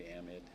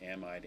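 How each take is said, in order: First: "amide" ending in a short "id"; short-i pronunciation. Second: "Amide" ending like "eyed"; long-i pronunciation. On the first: Teacher shows both common pronunciations, then short-i "amide". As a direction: say "amide" with last syllable like "mid". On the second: Teacher shows both common pronunciations, first long-i "Amide". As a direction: say "Amide" with last syllable like "eyed". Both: Shown as a demonstration. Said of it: "both pronunciations are common".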